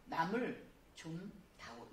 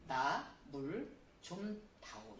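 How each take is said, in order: First: 남을 said as one unit, slowly, no break inside; teacher demo: keep 나 and 물 together as 남을; no pause after 남을. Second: Slow, with a break after 나 before 물; teacher demo: break 나 from 물 so it means 물; pause after 나. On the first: Teacher showing the class the other reading, 남을 kept together. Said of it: "이렇게 적당히". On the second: Teacher showing children where to pause, slow with a break after 나. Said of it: "이렇게 해야 되지만". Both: Shown as a demonstration.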